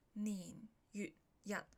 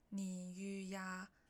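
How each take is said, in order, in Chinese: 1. 最后一个音节用短促的塞音收住。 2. 最后一个音节开口收尾，没有塞音。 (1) "但是月日这两个一定要收尾" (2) "假如你日没有收尾的话呢"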